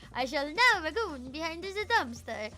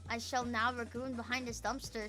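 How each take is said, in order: First: It is said as if Dracula is killing them. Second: It is said in a plain voice.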